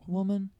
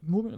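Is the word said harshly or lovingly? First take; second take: lovingly; harshly. First: It is said in a warm, loving way. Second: It is said in a harsh, dismissive way.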